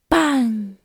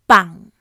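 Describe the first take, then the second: First: The syllable has a mid low, breathy pitch. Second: The syllable has a low falling, creaky pitch. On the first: It means pond. "Mid low pitch. Breathy" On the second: It means to carry a funeral. "Low falling pitch. Creaky"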